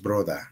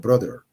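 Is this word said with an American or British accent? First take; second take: British; American. First: It is said with a British English accent. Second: It is said with an American English accent. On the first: "brother es es el inglés británico" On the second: "como ocupando el inglés de manera americana, sería brother"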